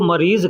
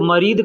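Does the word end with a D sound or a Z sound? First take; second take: Z sound; D sound. First: The word ends with a Z sound. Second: The word ends with a D sound. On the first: "जो ज्वाद कहते हैं वो मरीज़ कहेंगे" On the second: "जो द्वाद कहते हैं वो मरीद कहेंगे"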